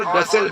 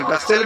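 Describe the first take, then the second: First: غسل with a short single s. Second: غسل with a held double s; doubled s. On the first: Arabic teacher contrasting two accepted forms, single s in غسل. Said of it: "اور غسل بھی بول سکتے ہیں". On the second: Arabic teacher contrasting two accepted forms, doubled s in غسل. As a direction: lengthen the s in غسل. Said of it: "غسل بھی بول سکتے ہیں". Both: Shown as a demonstration.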